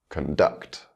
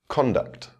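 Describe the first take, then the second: First: The stress is on the second syllable. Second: The stress is on the first syllable. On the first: It is used as a verb. "with the verb, the stress will fall on the second syllable" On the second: It is used as a noun. "the noun will have its word stress on the first syllable"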